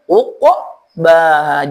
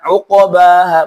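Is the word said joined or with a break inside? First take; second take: break; joined. First: The word is split with a break inside it. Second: The word is said smoothly without a break. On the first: The speaker calls it wrong. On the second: The speaker calls it right.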